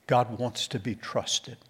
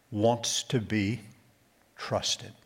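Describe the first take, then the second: First: Said in the usual way. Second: Drawn out slowly, pausing before trusted; slow emphatic phrase. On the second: Shown as a demonstration. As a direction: let trusted fall away to a breath.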